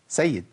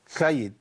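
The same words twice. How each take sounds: First: The first consonant is made cleanly. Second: The first consonant is made with a lisp. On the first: The speaker calls it right. "هي اصلا ايه؟" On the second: The speaker calls it wrong. "يقولك إيه؟"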